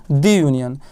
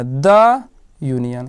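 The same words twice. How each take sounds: First: दी said as a long "dee" before union; wrong reading. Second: द said as a short "duh" before union, slow; correct reading. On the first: Teacher shows the class the wrong reading, दी said as a long "dee". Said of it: "जो गलत है". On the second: Teacher gives pupils the right reading, द as a short, slow "duh". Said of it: "consonant sound रहेगा ना तो द पढ़ना है". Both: Shown as a demonstration.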